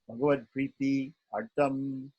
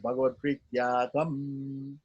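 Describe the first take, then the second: First: It is slow, split into two separate words. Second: It is at normal speed, joined into one word. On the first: The speaker calls it wrong. "when they say uh, prityatam slowly, they break it up into two words" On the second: The speaker calls it right. "Or better is when ... in normal speech ... in one word"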